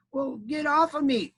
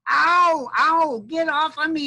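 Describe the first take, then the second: First: High, slow, drawn-out demand; put-out storybook critter; grumbling armadillo. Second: High, loud, drawn-out armadillo yelp; hammed-up squashed-animal yell; yelling in pain. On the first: Acted. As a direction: complain without yelling, in a high animal voice. Squashed armadillo repeating its complaint. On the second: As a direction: holler as if stepped on. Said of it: "it yelled at me".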